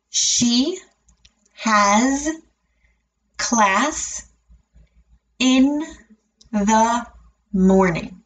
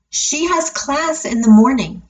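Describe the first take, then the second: First: The sentence is said very slowly, word by word. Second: The sentence is said at a natural speed. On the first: "break it down and say it very slowly" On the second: "I'll say it at a natural speed"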